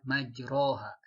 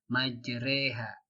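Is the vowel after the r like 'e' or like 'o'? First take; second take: o; e. First: The vowel after the r sounds like 'o'. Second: The vowel after the r sounds like 'e'. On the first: The speaker calls it wrong. "tidak boleh dibaca majroha" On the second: The speaker calls it right. "di situ ada kata majreha"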